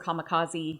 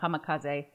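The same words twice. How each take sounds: First: The word has an English-style pronunciation. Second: The word has a Japanese-style pronunciation. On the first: The speaker calls it wrong. "I know I'm saying that wrong" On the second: The speaker calls it right. "I think, how you're supposed to say it"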